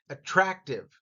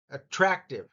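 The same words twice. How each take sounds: The two takes are said the same way.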